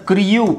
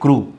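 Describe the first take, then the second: First: A y-like glide comes before the vowel. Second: The vowel follows the r with no glide. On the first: The speaker calls it wrong. "ಕ್ರಿಯೂ ಅಂತ ಹೇಳಂಗಿಲ್ಲ" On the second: The speaker calls it right. "ಬರೀ ಕ್ರೂ"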